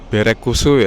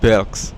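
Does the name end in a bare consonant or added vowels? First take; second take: added vowels; bare consonant. First: Vowels are added after each consonant. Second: It ends with a bare consonant cluster. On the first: "jadinya Berekusu ya ngomongnya itu orang Jepang" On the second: "bukan Belks"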